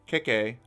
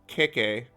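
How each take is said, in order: The two takes are said the same way.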